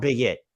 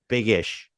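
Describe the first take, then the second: First: The word ends with an 'it' sound. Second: The word ends with an 'ish' sound. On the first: The speaker calls it wrong. "not big it" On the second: The speaker calls it right. "in case anyone heard me mispronounce it"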